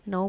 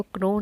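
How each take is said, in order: First: Said in the usual way. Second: "क्नो" with a hard k before the n; K sounded. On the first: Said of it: "नो बोलेंगे". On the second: Shown as a demonstration. Teacher showing how not to say know, k sounded in "क्नो". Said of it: "हम इसको क्नो नहीं बोलेंगे".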